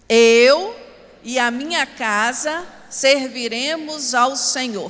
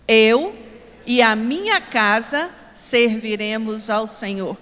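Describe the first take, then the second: First: It is said with strong, forceful conviction. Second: It is said plainly, without special force.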